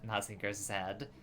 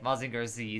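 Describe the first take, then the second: First: The final letter is said as 'zed'. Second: The final letter is said as 'zee'. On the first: The speaker calls it wrong. "doesn't sound as cool if you say Ma- Maz- Mazinger Zed" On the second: The speaker calls it right. "Mazinger Z sounds sounds cool"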